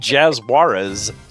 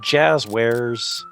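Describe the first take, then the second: First: The name is said like the surname Juarez. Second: The name is said as jazz plus wares. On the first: The speaker calls it wrong. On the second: The speaker calls it right.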